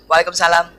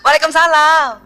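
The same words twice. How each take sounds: First: The reply sounds independent, flat and businesslike. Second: The reply sounds sweet, coy and pampered. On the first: The husband feels he is talking to a stranger. The speaker calls it wrong. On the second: The husband feels close and pleased. The speaker calls it right.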